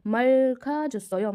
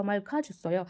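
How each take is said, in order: First: Syllables joined in one slow line; slow blended reading. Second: Said in the usual way. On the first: Shown as a demonstration. Teacher drawing out the phrase for students, slowly. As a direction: read Milkha छसो यो slowly, all blended together. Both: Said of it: "हम सबको मिला के पढ़ेंगे".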